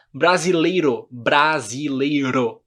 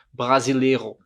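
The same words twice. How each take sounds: First: "brasileiro" with a light tapped R, drawn out on repeat; Brazilian tapped R. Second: "brasileiro" with a French throat R; "brasileiro" with the R made at the back of the mouth; gringo's throaty R. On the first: Shown as a demonstration. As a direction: flick the tongue for the R in "brasileiro". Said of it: "A gente fala r". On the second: Retold or imitated. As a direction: imitate a foreigner saying "brasileiro", R from the throat. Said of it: "Por isso que os gringos".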